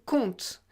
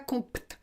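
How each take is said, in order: First: No P sound is pronounced before the T. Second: A P sound is pronounced before the T. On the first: The speaker calls it right. "On dit compte. Donc on a sélectionné le T, mais pas le P" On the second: The speaker calls it wrong. "Pas de P, on ne dit pas compte. C'est trop difficile"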